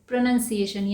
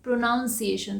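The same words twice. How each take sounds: First: The second syllable sounds like 'nun'. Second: The second syllable sounds like 'noun'. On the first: The speaker calls it right. "इसको सही तरीके से कैसे बोलते हैं" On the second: The speaker calls it wrong. "इसे हम अक्सर क्या बोलते हैं"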